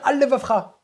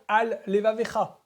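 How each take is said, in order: First: The two words are said fast as one word. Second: The two words are said separately and carefully.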